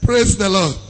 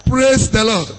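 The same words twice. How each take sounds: The two takes are said the same way.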